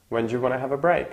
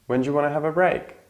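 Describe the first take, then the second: First: Fast relaxed repeat. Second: Fast wanna model. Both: Shown as a demonstration. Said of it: "very often is pronounced wanna".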